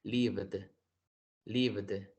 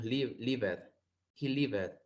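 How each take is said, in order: First: 'Lived' as livd, with a released D at the end; correct pronunciation demo. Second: 'lived' wrongly said in two syllables, liv-ed; common mispronunciation demo. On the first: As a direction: finish 'Lived' on a D, no E before it. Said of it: "con el sonido de D al final". ('Lived' bien pronunciado, con sonido de D al final) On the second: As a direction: sound the E in the ending of 'lived'. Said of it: "esto es un error muy común". ('lived' mal pronunciado, en dos sílabas: liv-ed) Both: Shown as a demonstration.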